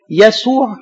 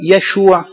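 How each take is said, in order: First: يسوع with an s in the middle; pronounced with S. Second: يشوع with sh instead of s; Hebrew pronunciation. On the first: Preacher contrasting two forms of the name, يسوع said with S. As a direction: say يسوع with a clear S, as in Arabic. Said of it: "اليهود ما عندهمش سين". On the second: Preacher showing how Hebrew says the name, يشوع with SH. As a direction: say يشوع with a clear SH in the middle. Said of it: "يتنطق يشوع على فكرة". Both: Shown as a demonstration.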